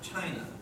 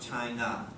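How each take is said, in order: First: The stress is on the first syllable. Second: The stress is on the second syllable. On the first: The speaker calls it right. "When we say China, it's the first syllable" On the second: The speaker calls it wrong. "It's not China"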